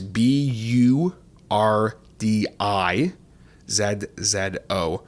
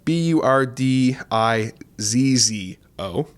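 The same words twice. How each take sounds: First: The Z letters are said as zed. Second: The Z letters are said as zee.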